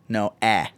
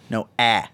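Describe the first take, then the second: The two takes are said the same way.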